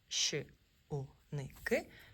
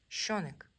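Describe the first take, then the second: First: Each letter sound is said separately, broken apart. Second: The sounds are joined into one smooth word. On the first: "коли ми беремо букву просто окремо з алфавіту" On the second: "коли ми з'єднуємо"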